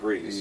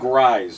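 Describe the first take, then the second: First: The surname sounds like the word 'grease'. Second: The surname does not sound like 'grease'. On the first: The speaker calls it wrong. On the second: The speaker calls it right.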